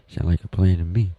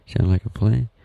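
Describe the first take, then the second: First: Said in the usual way. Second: "Sound like a plan?" with pitch rising high on "plan"; questioning. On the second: Retold or imitated. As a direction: ask it, lifting up on "plan". Asks listener, then answers himself.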